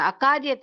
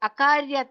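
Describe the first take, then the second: No difference in how they are said.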